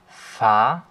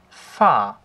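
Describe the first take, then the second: First: The pitch rises toward the end. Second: The pitch falls sharply downward. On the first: "ein ansteigender Strich, genauso wie der Tonverlauf auch ist" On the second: "beim vierten Ton ist es halt ein abfallender Strich"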